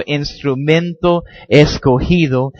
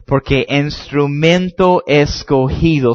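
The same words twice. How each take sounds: First: Instrumento escogido slow and deliberate; stressed phrase. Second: Instrumento escogido slow, each word weighted; stressed phrase. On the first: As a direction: press escogido home. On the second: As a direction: lean hard on instrumento escogido. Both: Shown as a demonstration. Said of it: "subraya eso".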